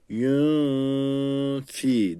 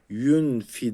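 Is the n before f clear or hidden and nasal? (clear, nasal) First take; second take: nasal; clear. First: The n is hidden into a nasal sound. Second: The n is pronounced clearly before the f. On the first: The speaker calls it right. "yün fi dememiz gerekiyor. İhva yapmamız gerekiyor" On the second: The speaker calls it wrong. "Yün fi değil"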